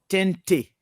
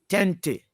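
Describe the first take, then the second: The two takes are said the same way.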